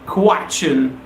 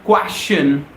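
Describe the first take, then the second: First: The ending is said with a ch sound. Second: The ending is said with a sh sound. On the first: The speaker calls it right. "The sound of ch, not the sound of sh" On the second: The speaker calls it wrong. "most of us pronounce it as wrong. We say question"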